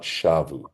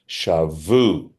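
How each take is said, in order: First: The stress is on the first syllable. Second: The stress is on the last syllable. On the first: It means they returned. "Had it been shavu, it would mean to return" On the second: It means they took captives. "ta'amo milra"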